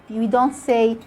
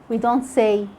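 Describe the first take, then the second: Both takes have the same delivery.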